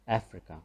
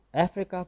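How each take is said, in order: First: افریقہ said the English way, as Afri-ka with a short i; English pronunciation. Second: افریقہ said the Urdu way, as af-ree-ka with a full first a; Urdu-style افریقہ with open a and long ee; Urdu pronunciation. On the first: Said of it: "صحیح pronunciation اس کی ہے". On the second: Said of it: "افریقہ کو ہم اردو میں افریقہ کہتے ہیں". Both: Shown as a demonstration.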